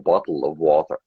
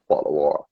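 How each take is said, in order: First: The t sounds are clearly and fully pronounced. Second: The t sounds are softened and not clearly pronounced. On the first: The speaker calls it right. "We should say" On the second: The speaker calls it wrong. "we don't say our T's properly"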